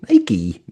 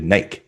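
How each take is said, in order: First: Nike is said the American way, ending in 'ee'. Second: Nike is said the British way.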